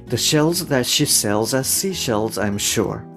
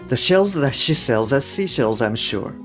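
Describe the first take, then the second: Both takes have the same delivery.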